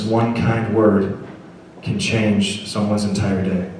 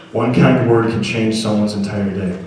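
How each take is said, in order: First: Each word slowly spaced out; slow deliberate reading. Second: Said in the usual way. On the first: Shown as a demonstration. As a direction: read the card aloud slowly, letting every word land.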